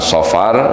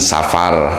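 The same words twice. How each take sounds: First: It begins with an emphatic, heavy s sound. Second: It begins with a plain, light s sound. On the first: "pakai sod ya" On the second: "di kita sering menyebutnya pakai sin"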